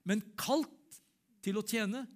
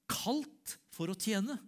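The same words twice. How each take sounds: First: "men kalt til å tjene" pitched high and louder, punching "kalt" and "tjene"; emphatic preaching. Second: Drawn-out, higher "kalt for å tjene" with weight on "tjene"; slow emphatic preaching. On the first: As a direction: drive the repeat home with force. Preacher repeats his point louder. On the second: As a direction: lean on "tjene", stretching each word. Preacher stressing his calling. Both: Acted.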